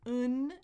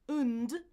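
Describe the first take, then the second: First: A weak schwa vowel is followed by n only. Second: A weak schwa vowel is followed by n and d. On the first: "I can keep that schwa. I can say n, just not do the D" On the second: "is the reduced version"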